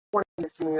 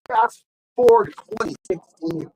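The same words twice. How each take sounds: First: Said in the usual way. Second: Higher, louder and slow, like a trailer voice; movie trailer narrator; dramatic announcement. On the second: Shown as a demonstration. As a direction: announce the time jump grandly. Dramatic jump in the story.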